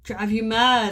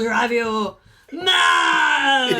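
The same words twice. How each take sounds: First: It is said in a natural voice. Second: It is said in a put-on character voice.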